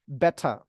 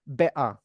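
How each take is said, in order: First: The middle t is released and the r is dropped. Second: The middle t is a glottal stop. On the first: It sounds British. "pakai T juga boleh, tapi T-nya diletupkan. R-nya dihilangkan. ... itu kedengaran British" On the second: It sounds even more British. "Mau lebih British lagi, diglotalkan boleh"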